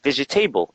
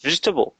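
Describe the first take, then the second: First: It is pronounced the French-influenced way. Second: It is pronounced the standard English way. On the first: The speaker calls it wrong. "you copy it like you say vegetable, and that's not right" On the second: The speaker calls it right. "It's vegetable"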